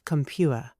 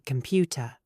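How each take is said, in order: First: The middle T is a glottal stop. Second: The middle T is fully released. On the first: It sounds casual and street level. The speaker calls it wrong. "not compuer" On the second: It sounds suitable for formal settings. The speaker calls it right. "Say computer"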